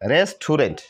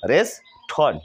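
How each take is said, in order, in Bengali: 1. শব্দটি তিন সিলেবলে বলা হয়। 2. শব্দটি দুই সিলেবলে বলা হয়। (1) "আমরা তো তাই বলি নাকি?" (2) "এই দুইটা ভাওয়ালকে বাদ দিয়ে দিই"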